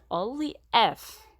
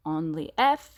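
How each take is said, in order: First: Only if slow and louder, each word weighted; repeated for emphasis. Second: Only if pushed out louder; repeated for emphasis. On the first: Teacher warning the girls, slow emphatic repeat. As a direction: lean on only if slowly, the final repetition. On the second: Teacher warning the girls, loud emphatic repeat. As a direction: hammer only if home to the class. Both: Shown as a demonstration. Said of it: "and I repeat it three times".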